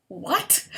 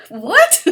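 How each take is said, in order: First: Puzzled. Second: Much louder and higher, stunned; outraged high-pitched shout; shocked shout. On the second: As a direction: yell it in disbelief. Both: Real, not acted. Reacting to therapist's remark.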